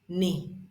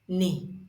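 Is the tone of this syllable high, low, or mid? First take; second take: low; low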